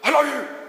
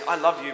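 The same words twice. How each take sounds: First: It is said in an aggressive, harsh tone. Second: It is said in a gentle, plain tone.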